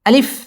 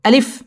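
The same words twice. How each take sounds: First: The vowel is said short and quick. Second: The vowel is said short and quick.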